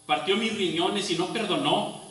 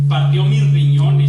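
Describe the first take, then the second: First: Said in the usual way. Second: Much louder, crying out the words; anguished cry. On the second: Acted. Preacher crying out Job's anguish to the congregation, loud. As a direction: shout the pain at its peak. Climax of the lament.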